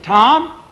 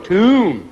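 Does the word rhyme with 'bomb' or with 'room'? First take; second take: bomb; room. First: The word rhymes with bomb. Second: The word rhymes with room. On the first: The speaker calls it wrong. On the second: The speaker calls it right.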